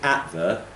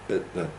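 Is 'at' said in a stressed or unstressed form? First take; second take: stressed; unstressed. First: The word 'at' is stressed and full. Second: The word 'at' is unstressed and reduced. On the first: The speaker calls it wrong. "we're not saying at the" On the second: The speaker calls it right. "we're saying at the ... de-stressing"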